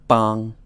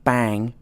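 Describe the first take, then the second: First: The vowel is the Mandarin ang sound. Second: The vowel sounds like the English word bang. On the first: The speaker calls it right. "but bang" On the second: The speaker calls it wrong. "not bang"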